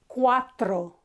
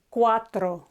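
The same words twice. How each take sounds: Both takes have the same delivery.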